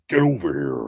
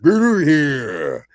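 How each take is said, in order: First: It is said with an American accent. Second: It is said with a Japanese accent.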